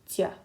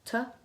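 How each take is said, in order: First: The consonant is soft, with a y-glide. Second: The consonant is hard, with no y-glide. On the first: "if you had this little soft sign after it" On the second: "if you were to pronounce it on its own"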